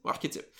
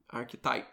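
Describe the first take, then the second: First: Archétypes said the French way, ar-ké-TYPE; French pronunciation. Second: Archetypes said the English way, AR-ke-types; English pronunciation. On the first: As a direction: say Archétypes as a French word after the English try. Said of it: "Euh, en français". (Archétypes prononcé à la française) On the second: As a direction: say Archetypes as an English word, not the French archétypes. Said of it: "Avec mon bel accent anglophone". (Archetypes prononcé à l'anglaise) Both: Shown as a demonstration.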